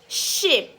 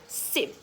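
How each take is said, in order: First: The vowel is said long. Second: The vowel is said short. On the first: The speaker calls it right. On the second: The speaker calls it wrong.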